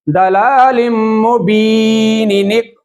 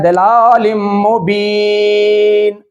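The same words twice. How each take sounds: First: दलालिम मुबीनिनिक chanted on without stopping, "ni-nik" linking; joined recitation. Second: दलालिम मुबीन chanted slowly, ending on a held "een"; recited with a stop. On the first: Teacher showing continuous reading, मुबीनिनिक chanted as one linked word. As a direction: slowly link मुबीनिनिक with short "i" after the long "bee". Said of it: "continue तसलसल के साथ पढ़ूंगा". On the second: Teacher recalling where they paused, दलालिम मुबीन chanted to a full stop. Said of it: "क्योंकि मैंने पहले पढ़ा है". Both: Shown as a demonstration.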